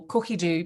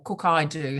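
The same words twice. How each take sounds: First: "Cookie Do" said with an ee sound ending the first word; Cookie Do pronunciation. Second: "Cook I Do" said with an eye sound in the middle; Cook I Do pronunciation. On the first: Naming the platform for viewers, "Cookie Do" pronounced cookie-doo. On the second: Offering viewers the other pronunciation, "Cook I Do" as cook-eye-doo. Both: Shown as a demonstration. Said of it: "however you want to pronounce it".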